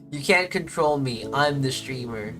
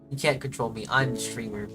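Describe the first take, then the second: First: It is said in an angry tone. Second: It is said in a calm, casual tone.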